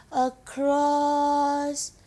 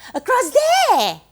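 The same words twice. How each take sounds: First: "across" stretched very slowly, held long; drawn out. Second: "there" flung out high and loud; calling out. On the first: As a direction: draw out "across" as if reaching over the distance. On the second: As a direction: call "across there" to a far-off point, punching "there". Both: Acted. Pointing far over the sea.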